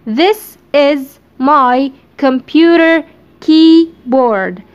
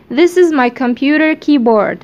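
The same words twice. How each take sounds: First: This is My computer keyboard stretched out very slowly; slow dictation. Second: Said in the usual way. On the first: Shown as a demonstration. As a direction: spell out the sentence slowly for students. (نطق بطيء جدًا للجملة)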